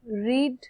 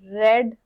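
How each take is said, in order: First: The vowel is long, rhyming with 'need'. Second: The vowel is short, rhyming with 'bed'. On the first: It is the present-tense form. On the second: It is the past-tense form.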